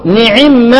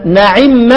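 First: نعم very slowly, the second variant of its vowel; second reading. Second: نعم said slowly with the first reading of the vowel. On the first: Teacher demonstrating the alternate reading of نعم. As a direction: drag out نعم to show the other reading. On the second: Teacher demonstrating one reading of نعم for students. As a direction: say نعم carefully as the first variant. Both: Shown as a demonstration. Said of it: "ما إحنا بنقول إيه؟".

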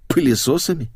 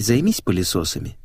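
First: Higher, baffled echo; stunned. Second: Said in the usual way. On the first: Acted. Narrator echoing the girl's odd order, stunned. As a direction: repeat пылесосами in mild disbelief. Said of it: "ошарашенно повторил я".

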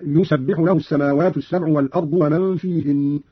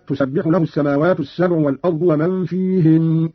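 First: "يسبح" begun with ya, "yusabbihu"; read with ya. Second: Said in the usual way. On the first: Shown as a demonstration. Teacher demonstrates Qalun's reading, "يسبح" with initial ya. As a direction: sound a ya opening "يسبح". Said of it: "بالتذكير أي بالياء". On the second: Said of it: "قرأ قالون بالتذكير أي بالياء".

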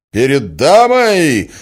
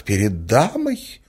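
First: High, loud, drawn-out incredulous shout; outraged cry. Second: Offended reproach with a rising end; reproachful lady. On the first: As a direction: throw her words back in fury. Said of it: "вскричал Мозгляков". (возмущённый крик) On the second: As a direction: remind him of his manners. Lady reproaches him for his language. (с укором, оскорблённо) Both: A narrator's reading.

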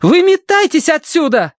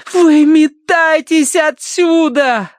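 First: High, loud yell. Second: Slow, high, loud cry; exhaled shout. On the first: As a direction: scream at them to get out. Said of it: "заорала Киврин". (громкий крик) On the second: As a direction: breathe it out slowly, drawn out. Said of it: "выдохнула Киврин". (выдохнула протяжно) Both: A narrator's reading.

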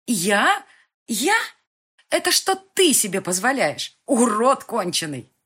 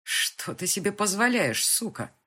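First: High, loud screaming retort; girl screaming back at her abuser; furious shout. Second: Loud, slow, furious accusation; angry man berating the girl; angry demand. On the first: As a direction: hurl it back at him, stress on ты. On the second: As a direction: bear down on позволяешь with rage. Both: Acted.

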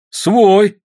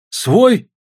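First: СВОЙ called high and loud, as a firm answer; confirming exclamation. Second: СВОЙ asked high, rising at the end; questioning. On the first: Soldier confirming to comrades, "Свой" loud and high. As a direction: exclaim "Свой" loudly, without questioning. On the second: Soldiers asking their comrade, "Свой" high and rising. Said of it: "спросили солдаты у товарища". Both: A narrator's reading.

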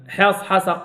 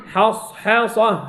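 First: Quick حصحصة with cut-short s; hurried sad. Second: Slow حصحصة with long hissed s; flowing soft sad. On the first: Teacher showing students the error, short sad. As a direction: clip the sad in حصحصة, as a mistake. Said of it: "لا". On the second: Teacher correcting students on rakhawa, slow drawn-out sad. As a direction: let the sad in حصحصة run on. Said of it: "رخاوتها". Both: Shown as a demonstration.

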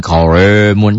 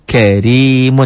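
First: "karimun" said wrongly as "koremun", ro thick and dark. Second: "Karimun" with a light, thin ri, the ro not thickened; correct thin ro. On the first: Teacher imitating the students' wrong thick ro in "karimun", mock warning. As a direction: show the mistake: "karimun" with a heavy rounded ro. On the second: Teacher modelling the correct thin ro in "Karimun" for students, careful demo. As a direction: say "Karimun" cleanly, thin ro as the rule wants. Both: Shown as a demonstration. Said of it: "jangan karimun".

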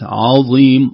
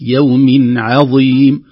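First: عظيم said in the mistaken way; wrong reading. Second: عظيم with a full, drawn-out vowel, slow and loud; correct reading. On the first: Sheikh showing the mistake to avoid. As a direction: say عظيم the way learners get it wrong. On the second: Sheikh demonstrating the correct word, slow and loud. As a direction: say عظيم slowly with clear ain and heavy ẓa. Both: Shown as a demonstration. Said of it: "وليست".

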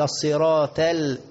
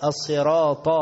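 First: "الصراط" ending in a light t; thin the ط of "الصراط" into ت; common mistake. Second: "الصراط" ending on an emphatic ta; heavy ta. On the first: Retold or imitated. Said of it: "تا، تا". («الصراط» بتاء مرققة خطأً) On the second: Shown as a demonstration. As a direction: give "الصراط" a full, heavy ط. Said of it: "لا، طا". («الصراط» بطاء مفخمة)

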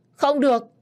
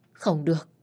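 First: Much higher, much louder cry of no; desperate shout. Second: Said in the usual way. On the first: Acted. The old boss begging his son not to kill his brother, shouting. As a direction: burst out in a desperate refusal.

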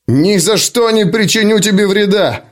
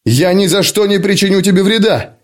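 First: Higher, forceful roar of refusal. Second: Higher, alarmed cry of protest; horrified outcry. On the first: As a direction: roar it out defiantly. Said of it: "реву я". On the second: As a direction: cry out in horror. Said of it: "в ужасе выкрикиваю я". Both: Acted.

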